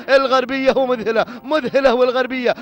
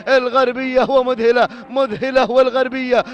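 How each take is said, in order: Both takes have the same delivery.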